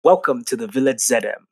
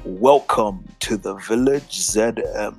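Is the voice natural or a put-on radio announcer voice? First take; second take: natural; radio voice. First: It is said in a plain, natural speaking voice. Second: It is said in a put-on radio announcer voice.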